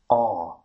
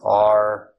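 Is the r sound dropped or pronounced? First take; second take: dropped; pronounced. First: The r sound is dropped. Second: The r sound is clearly pronounced. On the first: "in British English becomes R" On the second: "would be pronounced as R in the American English"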